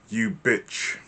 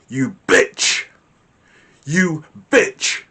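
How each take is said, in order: First: Said in the usual way. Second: Louder, higher, spat-out insult; angry snarl. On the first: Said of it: "will carry a different frequency from if I say". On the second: Shown as a demonstration. Teacher demos an angry insult to the class. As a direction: spit the insult with venom. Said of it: "Can you hear the difference in the tone and the frequency".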